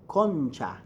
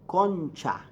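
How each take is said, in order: The two takes are said the same way.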